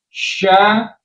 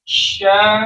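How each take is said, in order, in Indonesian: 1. Bunyinya dibentuk di bibir yang membulat. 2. Udara mengalir melalui mulut dengan bibir tidak membulat. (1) "kadang ada kesalahan menempatkan huruf shin makrotnya jadi di bibir" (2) "Sifat tafashinya harus ada"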